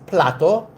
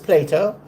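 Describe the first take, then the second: First: The name is said with a Greek pronunciation. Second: The name is said with an English pronunciation.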